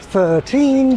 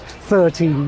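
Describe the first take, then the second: First: The stress is on the second syllable. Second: The stress is on the first syllable. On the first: "Classic textbook examples include thirteen" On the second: "primary stress supposedly shifting in that word from teen to third"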